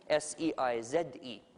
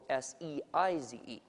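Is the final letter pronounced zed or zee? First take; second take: zed; zee. First: The final letter Z is said as zed. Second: The final letter Z is said as zee.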